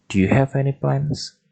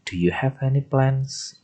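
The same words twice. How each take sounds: First: "Do you have any plans?" with the end rising on "plans"; rising question tune. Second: Said in the usual way. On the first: Shown as a demonstration. Teacher showing the class the rising yes-no intonation. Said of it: "intonasinya belakang naik". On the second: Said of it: "belakangnya harus naik".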